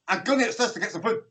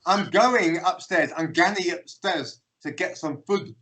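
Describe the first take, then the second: First: Fast, higher, run-together Scottish speech; rapid Scots mumble. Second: Slow, spelled-out delivery; slow translation. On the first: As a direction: rattle it off in quick Glaswegian. Retelling unintelligible fast Scots speech. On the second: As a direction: say each word separately for a baffled foreigner. Slow translation of the Scots phrase. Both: Retold or imitated.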